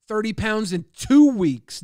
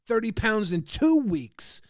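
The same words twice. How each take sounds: First: Slow, louder, hitting two; stress on two. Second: Slow, stressed two. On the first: Streamer hammering his weight loss at doubters, slow with two stressed. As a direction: spell it out slowly, punch two. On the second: Streamer repeating his weight loss to chat, slow and stressed. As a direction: drive the number home. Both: Acted. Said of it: "emphatic boast of weight loss".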